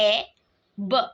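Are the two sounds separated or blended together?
separated. The two sounds are said separately with a break. "এর sound হলো এ, বি এর sound হলো ব"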